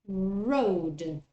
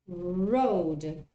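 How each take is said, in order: Both takes have the same delivery.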